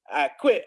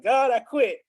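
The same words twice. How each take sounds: First: Said in the usual way. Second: Mock defiant, higher and a bit louder; shaking his fist at God, defiantly declaring he quits; fist-shaking defiance. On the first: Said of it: "I told God I quit". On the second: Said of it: "And I'm shaking my fist".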